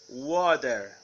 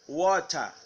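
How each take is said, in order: First: The vowel sounds like an open a. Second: The vowel sounds like a rounded o. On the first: "American water" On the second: "British water"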